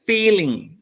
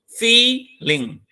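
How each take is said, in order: First: Said in the usual way. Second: "feeling" as two parts, "fee", then "ling"; split into syllables. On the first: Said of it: "if you pronounce it". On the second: Shown as a demonstration. Teacher counting syllables for students, "feeling" split fee-ling. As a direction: break "feeling" after a long, higher "fee". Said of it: "there are two".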